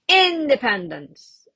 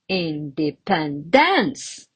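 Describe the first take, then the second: First: The stress is on the first syllable. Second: The stress is on the fourth syllable. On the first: "See, it sounds really weird" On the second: "And another wrong one"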